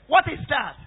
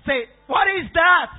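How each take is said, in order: First: Said in the usual way. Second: Louder shout demanding the answer; loud call to respond. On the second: Real, not acted. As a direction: call it out to the whole church.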